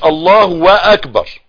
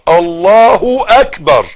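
First: A w sound comes before the second word. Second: The second word begins directly with a vowel. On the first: The speaker calls it wrong. "عشان ما تقولش الله واكبر" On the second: The speaker calls it right. "لا تقول الله اكبر"

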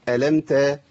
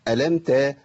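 Both takes have the same delivery.

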